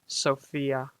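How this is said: The name is drawn out slowly. "a lot of people pronounce it Sophia with like a really slow"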